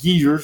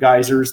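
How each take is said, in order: First: The first syllable rhymes with 'gee'. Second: The first syllable rhymes with 'guy'. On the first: This is the British regional pronunciation. "they call them geezers like old dudes" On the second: This is the local regional pronunciation. "Our region pronounced them geysers like dudes"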